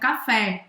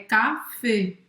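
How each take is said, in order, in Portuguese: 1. A vogal final é pronunciada aberta. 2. A vogal final é pronunciada fechada. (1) "não é aberto café" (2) "é café"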